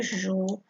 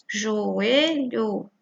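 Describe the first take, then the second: First: Joelho as jo, e, lho, with gaps and lower pitch; split into syllables. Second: Said in the usual way. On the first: Shown as a demonstration. Teacher modelling how to separate syllables, split into syllables. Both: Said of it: "Primeiro separa aqui".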